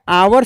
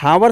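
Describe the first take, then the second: First: The word starts with a vowel, no h. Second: The word starts with an audible h. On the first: The speaker calls it right. "इसका pronunciation जो है आवर से हो रहा है" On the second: The speaker calls it wrong. "हावर से नहीं हो रहा है"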